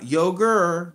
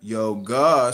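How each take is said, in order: First: YOGUR drawn out with a hard R; slow yogur ending on ER; mimicked mispronunciation. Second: YOGA with an open AH ending; emphatic American YO-GAH; American pronunciation. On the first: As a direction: show the wrong R on yogur. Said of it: "Say it with me now". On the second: Real, not acted. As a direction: model yoga for a learner, no R. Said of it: "Say it like an American".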